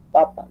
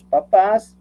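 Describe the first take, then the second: First: "Papa" stressed on the first syllable, PA-pa; papa, the tuber. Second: "papás" stressed on the last syllable, pa-PÁS; papás, the parents. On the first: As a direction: say "Papa" with the weight on the opening PA. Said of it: "papa sin acento quiere decir el tubérculo". ("Papa" con acento en la primera sílaba, PA-pa) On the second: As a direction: lean on the final PÁS of "papás". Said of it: "decía sin acento papá". ("papás" con acento en la última sílaba, pa-PÁS) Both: Shown as a demonstration.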